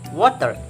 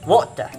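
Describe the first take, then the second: First: It is said with an American accent. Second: It is said with a British accent. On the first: "water in American" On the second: "water in British"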